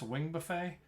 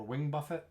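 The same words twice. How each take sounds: First: Buffet said like the meal, buh-FAY; buffet like food. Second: Buffet said BUFF-it, with sounded t; alternative buffet pronunciation. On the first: Tank explaining a boss ability, Buffet pronounced buh-FAY. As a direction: say Buffet with silent t, ending in "fay". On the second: Tank offering the other reading, Buffet pronounced BUFF-it. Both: Shown as a demonstration. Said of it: "I say buffet 'cause I like food".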